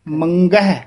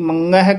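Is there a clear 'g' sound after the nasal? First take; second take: yes; no. First: A clear 'g' sound follows the nasal. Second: The nasal swallows the 'g' sound. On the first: The speaker calls it right. "ਗੱਗਾ ਸ਼ੁੱਧ ਉਚਾਰਨ ਕਰਨਾ" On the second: The speaker calls it wrong. "ਗੰਗਾ ਲਾ ਜਾਂਦੇ ਹਨ"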